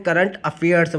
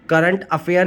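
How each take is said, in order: First: "current अफेयर्स" with a clear s at the end of "अफेयर्स"; correct plural with s. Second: "current अफेयर" said without a final s, as the wrong form; plain "अफेयर" with no s at the end. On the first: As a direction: finish "अफेयर्स" on a sounded s. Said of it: "current अफेयर्स बोलेंगे". (सही रूप: "अफेयर्स" के अंत में साफ़ s) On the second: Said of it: "current अफेयर नहीं बोलेंगे". (ग़लत रूप: "अफेयर" बिना s के) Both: Shown as a demonstration.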